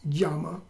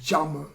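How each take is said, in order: First: The word begins with a Y sound. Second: The word begins with a J sound. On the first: The speaker calls it wrong. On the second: The speaker calls it right.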